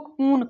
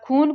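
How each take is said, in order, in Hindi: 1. पहला व्यंजन अल्पप्राण है, इसमें हवा का झोंका नहीं निकलता। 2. पहला व्यंजन महाप्राण है, इसमें हवा का झोंका निकलता है।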